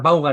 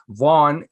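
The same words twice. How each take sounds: First: The name is said with Spanish sounds. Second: The name is said with American English sounds. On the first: "en español" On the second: "en inglés americano"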